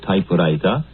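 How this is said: It is said with a Japanese katakana pronunciation. The speaker calls it wrong. "come out typewriter, simply because in the Japanese student's mind, that is the pronunciation"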